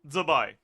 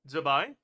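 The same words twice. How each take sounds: First: The opening Z is strongly emphasized. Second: The opening Z is said lightly. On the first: The speaker calls it wrong. "The intonation is wrong" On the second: The speaker calls it right. "don't put that much stress on on the z"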